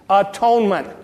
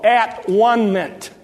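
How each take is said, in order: First: It is said at normal speed, run together. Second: It is said slowly, syllable by syllable.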